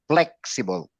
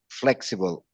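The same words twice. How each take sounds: First: The word begins with a P sound. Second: The word begins with an F sound. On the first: The speaker calls it wrong. "we mispronounce it, like the word flexible, we pronounce it as" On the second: The speaker calls it right. "So it should be flexible"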